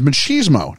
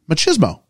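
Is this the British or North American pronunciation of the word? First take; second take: North American; British. First: The word has its North American pronunciation. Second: The word has its British pronunciation. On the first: "the North American is machismo" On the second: "the British pronunciation is machismo"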